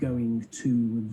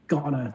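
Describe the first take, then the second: First: Each word is pronounced fully and separately. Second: The words are squeezed into one reduced form. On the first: The speaker calls it wrong. "Forget going to" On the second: The speaker calls it right. "It's got to be gotta to start with"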